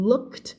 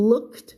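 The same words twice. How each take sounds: The two takes are said the same way.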